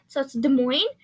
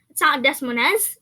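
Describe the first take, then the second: First: The s sounds in both words are silent. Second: The s sounds in both words are pronounced. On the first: The speaker calls it right. "the S's in both words is silent" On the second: The speaker calls it wrong. "It's not"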